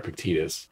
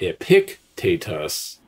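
First: The stress is on the third syllable. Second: The stress is on the second syllable. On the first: The speaker calls it right. "it's Epictetus" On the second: The speaker calls it wrong. "The accent is not on the antepenult. So it's not Epictetus"

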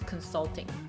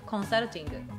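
First: It is said with English pronunciation. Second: It is said as a Japanese loanword.

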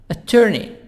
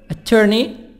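The two takes are said the same way.

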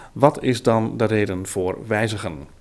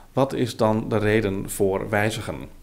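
The two takes are said the same way.

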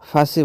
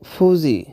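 First: The middle consonant is an 's' sound. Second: The middle consonant is a 'z' sound. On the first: The speaker calls it wrong. "এটাকে আমরা অনেক সময় ফাঁসি বলি" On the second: The speaker calls it right. "তো এটা আসলে কিন্তু ফুজি"

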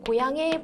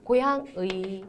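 First: The particle is pronounced as 'e'. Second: The particle is pronounced as 'ui'. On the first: "애로 소리 나는 걸 허용합니다" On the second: "의로도 되고요"

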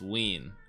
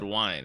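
First: The name sounds like the word Wiener. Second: The name sounds like the word wine. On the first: The speaker calls it right. "it's Wiene. ... Sounds like Wiener" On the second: The speaker calls it wrong. "I said wine"

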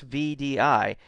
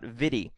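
First: It is said as three separate letters. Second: It is said as a single word. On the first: The speaker calls it right. "VDI is pronounced as an initialism" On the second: The speaker calls it wrong. "not as a word"

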